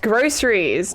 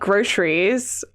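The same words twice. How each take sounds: First: The middle consonant is an s sound. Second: The middle consonant is a sh sound. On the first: The speaker calls it right. "It's groceries, ... It's not sh. It's a C" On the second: The speaker calls it wrong. "not groceries"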